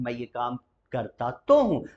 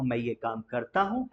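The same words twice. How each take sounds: First: "तो" in "करता तो हूँ" leaned on; emphasis on तो. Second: Said in the usual way. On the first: Shown as a demonstration. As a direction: press तो to insist. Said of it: "जब आपको कहना हो". ("तो" पर ज़ोर देकर) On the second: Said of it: "otherwise simple बोलना हो".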